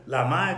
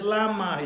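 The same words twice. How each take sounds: First: Lama with the stress on the final MA; stress on last syllable. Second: Lama with LA stressed, higher pitched; stress on first syllable. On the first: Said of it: "instead of lama, it said lama". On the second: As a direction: hit the LA of lama. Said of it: "was placed on the first syllable". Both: Shown as a demonstration.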